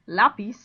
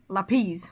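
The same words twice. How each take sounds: First: The stress is on the first syllable. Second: The stress is on the last syllable. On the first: The speaker calls it right. "you're going to put it on the A" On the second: The speaker calls it wrong. "would have the stress on the last syllable, the I, and it doesn't"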